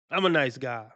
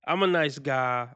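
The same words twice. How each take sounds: The two takes are said the same way.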